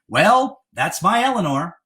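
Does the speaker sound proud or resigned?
proud. The tone sounds proud and pleased. He is pleased and claims credit for what she did. "it played well for him politically"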